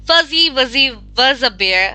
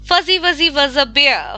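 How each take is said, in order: First: It is spoken at a slow pace. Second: It is spoken at a fast pace.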